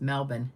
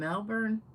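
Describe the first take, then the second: First: The R sound is dropped from the word. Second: The R sound is pronounced in the word.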